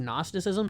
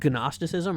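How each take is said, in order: First: The word starts with an N sound, G silent. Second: The word starts with a hard G sound. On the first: The speaker calls it right. "you don't say the G" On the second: The speaker calls it wrong.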